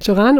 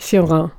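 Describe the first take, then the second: First: The name is said with Romanian pronunciation. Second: The name is said with French pronunciation.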